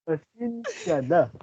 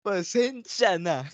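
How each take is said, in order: First: High, slow copied pasensya; mock apology voice. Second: High, slow pleading pasensya; mock apology voice. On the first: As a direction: copy the pleading sorry slowly. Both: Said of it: "Gagayahin ko".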